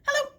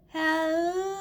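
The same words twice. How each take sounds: First: It is said very fast. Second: It is said very slowly.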